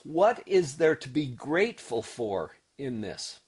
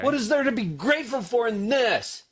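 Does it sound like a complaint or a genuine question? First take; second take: genuine question; complaint. First: It sounds like a genuine, open question. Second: It sounds like an exclaimed complaint.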